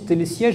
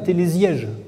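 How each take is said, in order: First: The consonant after télé is a hissing s. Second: The consonant after télé is a buzzing z. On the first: The speaker calls it right. "il faut bien prononcer télésiège" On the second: The speaker calls it wrong. "et non pas télésiège"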